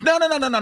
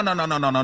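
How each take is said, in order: First: Emphatic no. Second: Said in the usual way. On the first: Real, not acted. Rejecting the court's claim.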